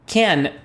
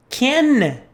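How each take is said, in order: First: Said in the usual way. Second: Can said high and marked; stressed demo. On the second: Shown as a demonstration. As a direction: lift the word can up high. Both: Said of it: "what we're saying is this".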